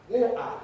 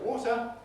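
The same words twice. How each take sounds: First: The T is a glottal stop. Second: The T is a full T sound. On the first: "the Cockney pronunciation can be water" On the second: "where I would say water"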